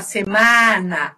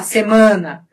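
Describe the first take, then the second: First: "semana" with open, oral stressed a, lengthened; Spanish open a. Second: "semana" with nasalized stressed a; Portuguese nasal a. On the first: Teacher showing the Spanish way, open a. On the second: Teacher showing the Portuguese way, nasal a. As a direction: send the a of "semana" through the nose. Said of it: "semana pelo nariz". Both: Shown as a demonstration.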